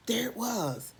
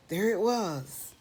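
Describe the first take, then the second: No difference in how they are said.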